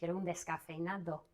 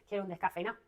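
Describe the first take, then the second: First: It is said in a careful standard Spanish pronunciation. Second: It is said in a relaxed regional Spanish accent. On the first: The speaker calls it right. "I try to pronounce as correctly as possible" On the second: The speaker calls it wrong. "I have learned Spanish in Cáceres, Extremadura. And so I could say easily"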